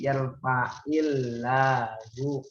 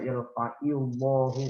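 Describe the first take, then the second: First: The L in Allah is light and thin. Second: The L in Allah is heavy and full. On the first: The speaker calls it right. "dibaca tarkik titis" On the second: The speaker calls it wrong. "pernah ada penceramah baca"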